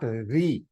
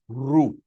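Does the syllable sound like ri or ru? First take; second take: ri; ru. First: The vowel after r sounds like ee. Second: The vowel after r sounds like oo. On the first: The speaker calls it wrong. "It is not Ri" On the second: The speaker calls it right. "It is Ru"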